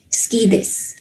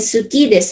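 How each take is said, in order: First: The first vowel is dropped, sounding like ski. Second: The first vowel is fully voiced, sounding su-ki. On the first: The speaker calls it right. "the pronunciation is ski" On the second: The speaker calls it wrong. "hindi yan suki des"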